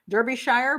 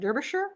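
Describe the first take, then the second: First: It is said with an American pronunciation. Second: It is said with an attempted British pronunciation. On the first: "I know Americans would say Derbysh, Derbyshire, but I don't think that's correct" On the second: "that may be wrong too"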